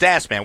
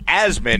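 First: The name does not sound like jasmine minus J. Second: The name sounds like jasmine without the J. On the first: The speaker calls it wrong. "Dave Rothenberg is convinced it's Asman" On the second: The speaker calls it right. "it's actually pronounced Asman, okay, as in Jasmine without the J"

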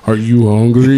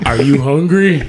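First: It is said in a big deep voice. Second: It is said in a normal voice.

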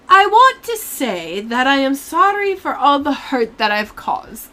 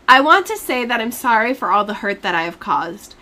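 First: It is read in a British accent. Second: It is read in a normal accent.

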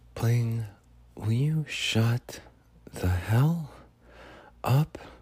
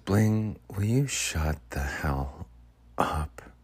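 First: It sounds subtly sweet and affectionate. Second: It sounds genuinely mean and annoyed.

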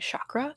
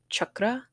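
First: The word has an anglicized English pronunciation. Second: The word has an Indian-style pronunciation. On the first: The speaker calls it wrong. "I am very whitewashed, so I'm going to be saying chakra" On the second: The speaker calls it right. "even though it's chakra"

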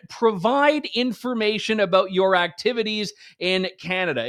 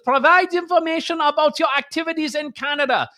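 First: It is said in a plain, neutral accent. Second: It is said in a menacing German accent. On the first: It is a harmless request for information. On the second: It is a threatening demand from authority.

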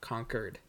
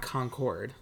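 First: The second syllable is a reduced 'kerd' sound. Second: The second syllable is a full 'cord' sound. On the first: This is the local New Hampshire pronunciation. "Concord is Q-U-E-R-E-D" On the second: This is how everywhere else says it. "like Concord grapes"

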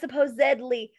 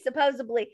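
First: The word is said with a d sound. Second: The word is said with a b sound. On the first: The speaker calls it right. "It's spelled with a D, not a B" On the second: The speaker calls it wrong. "I say supposedly"

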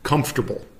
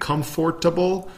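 First: The second syllable is dropped. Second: All four syllables are pronounced fully. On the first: "We just kind of like skip out the second syllable" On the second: "instead of saying comfortable"

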